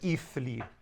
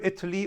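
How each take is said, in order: First: The middle consonant is a soft 'th' sound. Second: The middle consonant is a hard 't' sound. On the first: The speaker calls it wrong. "nobody really says ethli" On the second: The speaker calls it right. "it's hardened no matter what dialect"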